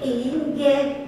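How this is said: The yes sounds positive and willing. "ah itu positif"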